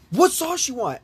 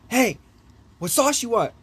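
First: Much higher, insistent retold question; high-pitched mock nagging to wake someone; insistent wake-up call. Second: Raised, higher-pitched retold call; higher-pitched mock wake-up call; calling to a sleeper. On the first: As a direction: imitate a friend pressing a sleeper for an answer. Shaking the sleeper to wake him. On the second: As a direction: imitate a friend trying to rouse someone. Waking the sleeping friend.

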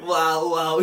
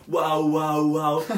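First: Loud toy-doll parroting; lightly voiced robotic repeat; imitated doll echo. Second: Loud repeated mock wails; sustained, loud mimicked yelling; imitated screaming. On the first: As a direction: echo the screams like a talking doll. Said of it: "e a boneca". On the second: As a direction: mimic someone screaming nonstop. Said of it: "A gaja fez isto durante aí dez vezes".

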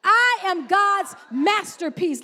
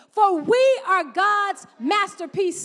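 First: "I" punched out loud and slow; stress on I. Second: Slow, stretched read with the congregation; slow read-along. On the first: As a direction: claim "I am" with force. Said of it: "Make that thing personal". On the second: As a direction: lead them through it word by word. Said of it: "I want you to read it with me". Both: Shown as a demonstration.

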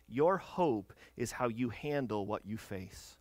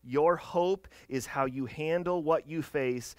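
First: "your hope is how you handle what you face" said slow, softer and lower, each word weighed; slow thesis. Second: "Your hope is how you handle what you face" slow and firm at full voice, stress on "Your"; emphatic thesis. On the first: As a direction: lay it down quietly and slowly. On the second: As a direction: proclaim it slowly, landing on "Your". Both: Real, not acted. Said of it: "I challenge you with this".

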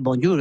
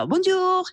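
First: "bonjour" said flat and plain. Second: "bonjour" sung high with French melody; melodic French bonjour. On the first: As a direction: keep "bonjour" level and unmelodic. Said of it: "no puedes decir". ("bonjour" plano, sin melodía) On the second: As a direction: lift "bonjour" high and musical. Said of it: "le darás esa melodía". ("bonjour" agudo y cantado, a la francesa) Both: Shown as a demonstration.

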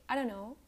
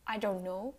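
First: "I don't know" run together like "I dunno"; silent T. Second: "I don't know" with every word separate; full T. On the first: Teacher showing American English, "I don't know" with no T. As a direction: drop the T in "don't". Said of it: "the T is silent". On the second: Teacher showing the wrong way, "I don't know" fully articulated. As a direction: sound the T in "don't". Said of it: "You don't say". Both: Shown as a demonstration.

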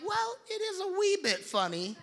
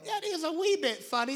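First: High, cheeky little British voice; a child copying a cartoon pig's British lilt; lightly done British accent; British kid accent. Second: British cartoon accent. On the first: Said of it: "she'd be like". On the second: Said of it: "it's like".

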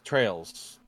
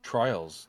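First: Trails said with long A, "trayls". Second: Trials said with long I, "try-als". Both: Shown as a demonstration. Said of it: "Is it Trails or Trials?".

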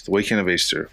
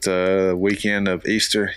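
First: Said in the usual way. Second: "Easter" drawn out slowly as a question; unsure question. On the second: Real, not acted. Speaker trying to recall the date, slow questioning "Easter".

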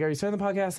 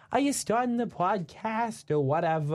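First: Imitating friends. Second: Higher, slow impression of the two friends; lightly put-on voice of friends calling in. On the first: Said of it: "but they're like". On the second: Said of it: "that's my best impression I can do of them".

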